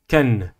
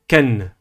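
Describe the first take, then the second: The two takes are said the same way.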